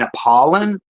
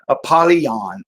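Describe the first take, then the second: First: The name ends in 'lon' with no 'y' sound. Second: The name has a 'y' sound before the end. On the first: "I was pronouncing this wrong at some point and just saying Apollon" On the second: "there's like a Y"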